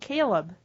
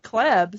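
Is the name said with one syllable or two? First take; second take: Two; One. First: The name is said as two syllables. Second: The name is said as one syllable. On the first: The speaker calls it right. "I pronounce it Caleb" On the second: The speaker calls it wrong. "you keep calling me"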